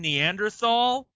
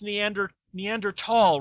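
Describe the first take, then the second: First: The 't' and 'h' are joined into a 'th' sound. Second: The 't' and 'h' are not joined; it sounds like 't'. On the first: The speaker calls it wrong. "where they keep saying Neanderthal" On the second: The speaker calls it right. "you guys know it's pronounced Neanderthal, right? ... they're not pronounced together"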